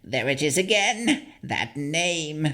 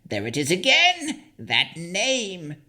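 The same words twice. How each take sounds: First: High hag voice rising on again; a puzzled old crone, lightly voiced. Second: Frantic hag. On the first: The hag hearing her old name, high rising crone voice. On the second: Acted. The hag hitting her own head, high frantic crone cry. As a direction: cry it out like a crazed old hag. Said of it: "hitting her own head".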